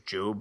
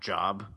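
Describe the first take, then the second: First: The vowel is a long 'oh' sound. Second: The vowel is a short 'o' sound. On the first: It names the biblical figure. The speaker calls it right. "it was pronounced as Job" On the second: It means a piece of work. The speaker calls it wrong. "and not Job"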